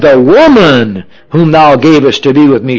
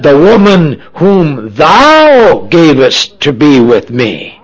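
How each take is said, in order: First: The stress falls on the word woman. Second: The stress falls on the word thou. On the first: The woman is to blame. "it sounds like Adam is blaming his wife Eve, or the woman" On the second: The one who gave the woman is to blame. "we find Adam is actually blaming God"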